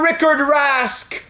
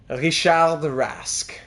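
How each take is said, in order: First: The name is pronounced the plain English way. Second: The name is pronounced the French way.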